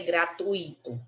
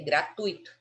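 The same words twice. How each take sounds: First: The 'u' and 'i' are said as separate syllables. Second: The 'ui' is said together as one syllable. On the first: The speaker calls it wrong. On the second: The speaker calls it right.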